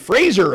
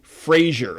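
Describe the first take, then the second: First: The name is not said like the show title. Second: The name is said like the show title. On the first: The speaker calls it right. "I'm saying that correctly" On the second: The speaker calls it wrong. "saying his name wrong. Everybody's been calling him Frasier, like the T V show"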